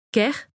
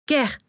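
First: "Kerr" with a rising, questioning end; repeated questioning call. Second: Higher, falling exclamation of "Kerr", no real volume; restrained cry. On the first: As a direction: try "Kerr" tentatively, voice lifting as a question. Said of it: "répéta-t-il". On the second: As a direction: call out "Kerr" urgently but contained. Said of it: "cria-t-il en ne voyant aucun signe de vie". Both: A narrator's reading.

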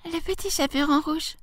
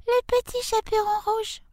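First: Put-on high, soft little-girl voice. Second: Put-on tiny squeaky little-girl falsetto, softly; wolf's put-on high child voice; wolf imitating girl. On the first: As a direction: answer as a small child, pitched way up. Girl answers at the door. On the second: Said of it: "qui était très doué pour les imitations". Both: A narrator's reading.

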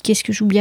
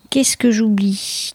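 First: Said in the usual way. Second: Whisper to herself. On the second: Real, not acted. Thinking aloud, whispers to herself.

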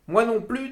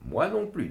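First: High loud echo, stress on Moi; woman echoing. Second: Higher, stress on non; mother's echo leaning on non. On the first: Woman echoes the rabbi, stressing Moi. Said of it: "dit la femme en écho". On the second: Mother echoes too, leaning on non. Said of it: "dit ma mère". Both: A narrator's reading.

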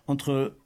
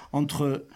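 No difference in how they are said.

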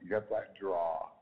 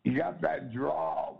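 First: Said in the usual way. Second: Mock drawl. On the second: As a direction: teasingly stretch the words like a Southern drawl.

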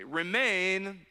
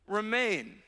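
First: Said in the usual way. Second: "Remain." alone after a pause, with weight; emphatic single word. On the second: Shown as a demonstration. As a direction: isolate "Remain." and lean into it. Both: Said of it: "Some translations say abide".

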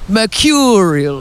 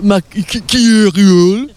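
First: "Mercurial" said slowly and fully; pronunciation model. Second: "Mercurial" very slow, stumbling on the middle; attempted pronunciation. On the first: Interviewer showing the guest how to say "Mercurial", slow and clear. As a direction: model the word "Mercurial", drawn out for a learner. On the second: Guest copying the interviewer's "Mercurial", slow and stumbling. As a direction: try "Mercurial" haltingly, higher, rising at the end. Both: Shown as a demonstration. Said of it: "How do you say mercurial?".

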